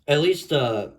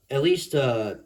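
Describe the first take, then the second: No difference in how they are said.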